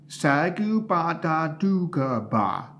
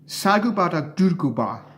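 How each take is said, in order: First: The name is said slowly. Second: The name is said at normal speed.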